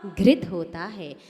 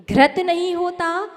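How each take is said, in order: First: घृत said as ghrit with a clear ri; घृत pronounced ghrit, calm and falling; correct way said. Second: घृत said as ghrat, the wrong way, tune rising; घृत mispronounced ghrat, as if in doubt. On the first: Teacher modelling the correct घृत, said as ghrit. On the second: Teacher showing students the wrong घृत, said as ghrat. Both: Shown as a demonstration.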